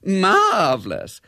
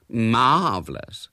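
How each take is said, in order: First: High, loud, drawn-out "Marvellous"; gushing high-keyed "Marvellous"; on a higher key. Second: Slow, drawn-out "Marvellous"; loud, languid gush on "Marvellous". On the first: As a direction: pitch "Marvellous" way up and stretch it. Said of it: "said Bella on a higher key". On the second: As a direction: stretch the first syllable of "Marvellous" admiringly. First of three rising gushes. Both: A narrator's reading.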